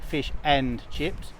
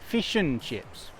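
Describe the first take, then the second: First: 'And' is said fully with its D. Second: 'And' is reduced to a schwa without D. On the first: The speaker calls it wrong. "We don't say fish and chips" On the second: The speaker calls it right. "the D has disappeared and the vowel sound has become an uh"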